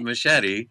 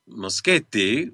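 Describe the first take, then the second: First: The surname is said with an English-style pronunciation. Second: The surname is said with an Italian pronunciation. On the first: The speaker calls it wrong. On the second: The speaker calls it right.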